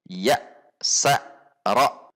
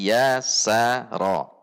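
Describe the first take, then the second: First: The syllables are pushed out with abrupt jerks. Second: The syllables are short, even and smooth. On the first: The speaker calls it wrong. "Contoh yang ada hentakan" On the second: The speaker calls it right.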